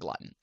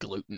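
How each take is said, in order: First: The word sounds like 'glutton'. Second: The word sounds like standard 'gluten'. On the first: "I pronounce it glutton. Because you're gluttonous if you eat glutton" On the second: "a lot of people pronounce it gluten"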